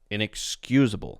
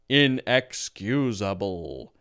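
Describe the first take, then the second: First: It flows smoothly with reduced, weak vowels. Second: Each syllable is said separately with full vowels. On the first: The speaker calls it right. "that sounds, of course, much more natural" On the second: The speaker calls it wrong. "very robotic, not very natural"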